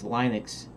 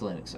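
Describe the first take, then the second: First: The first syllable sounds like 'Linus'. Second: The first syllable sounds different from 'Linus'. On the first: The speaker calls it wrong. "I used to pronounce Linux Linux only because uh, I was thinking of the creator Linus" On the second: The speaker calls it right. "everybody pronounces it Linux, so it's Linux"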